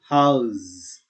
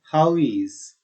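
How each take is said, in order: First: The words are joined into one contracted syllable. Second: Both words are said separately in full.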